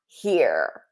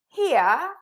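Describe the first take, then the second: First: It is said in an American accent. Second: It is said in a British accent. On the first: "For American accent, ... You hear that?" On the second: "So in British English, ... you're gonna say here"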